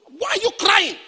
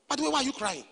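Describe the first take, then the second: First: Put-on high, raised-voice questioning of a child; acted demanding shout. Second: Put-on softer voice, asking a child; quiet questioning. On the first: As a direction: call out sharply to a crying child. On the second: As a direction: drop the volume and ask privately. Man then asks child quietly.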